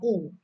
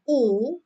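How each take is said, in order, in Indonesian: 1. Vokal itu diucapkan pendek. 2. Vokal itu diucapkan panjang. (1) "boleh pendek" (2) "boleh panjang"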